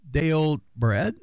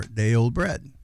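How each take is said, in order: First: "Day" lifted and stretched, slow; stress on Day. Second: "bread" stressed with a falling end. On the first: Showing how emphasis changes bread's meaning, stress on "Day". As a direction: lean on the word "Day". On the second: Then showing the other reading, stress on "bread". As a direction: land hard on "bread". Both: Shown as a demonstration. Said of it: "it's all in the emphasis".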